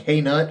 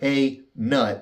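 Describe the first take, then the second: First: The two words run together without a pause. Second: The two words are split by a short pause. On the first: It is a single brand name. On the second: It sounds like a command to someone.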